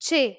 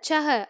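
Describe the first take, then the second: First: The word is said as one short syllable. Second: The word is said as two syllables. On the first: The speaker calls it right. "சேங்கிறதே போதுமானது" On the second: The speaker calls it wrong. "சிலர் சஹ அப்படின்னு சொல்லுவாங்க"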